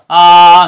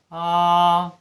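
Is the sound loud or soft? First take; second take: loud; soft. First: The sound is loud and strong. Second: The sound is soft and weak.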